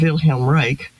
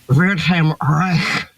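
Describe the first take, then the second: First: It is said in the speaker's plain accent. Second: It is said with an exaggerated German accent.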